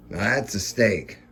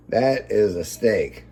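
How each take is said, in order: First: Said in the usual way. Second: Slow, each word of "That is a steak" weighed; proud, drawn-out "That is a steak"; stress on is. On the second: Real, not acted. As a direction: lean hard on "is" in "That is a steak".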